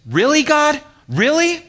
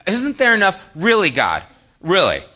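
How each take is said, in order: First: Very high, loud, rising disbelief; incredulous questioning. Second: Loud complaint falling from high to firmer; exasperated protest. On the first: Believer questioning God in frustration, high-pitched incredulous mock protest. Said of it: "maybe you say it like this". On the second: Preacher complaining to God in his own life, exasperated falling protest. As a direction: protest to God, each "really" dropping at the end. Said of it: "that's how I say it". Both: Acted.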